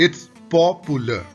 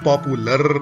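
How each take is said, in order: First: The last syllable is not stressed. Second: The final r syllable gets heavy stress. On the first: The speaker calls it right. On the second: The speaker calls it wrong.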